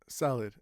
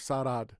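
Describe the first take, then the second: First: The second syllable is short and weak. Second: The second syllable is full and strong. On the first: The speaker calls it right. "we still say salad" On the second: The speaker calls it wrong. "instead of salad"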